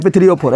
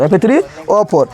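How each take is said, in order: First: Said in the usual way. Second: "F three O four" spelled out slowly, letter by letter; slow it down so they can write "F three O four"; slow formula. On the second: Shown as a demonstration. Teacher repeats the rust formula for students, slowly. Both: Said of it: "जंग का सूत्र याद रखना है".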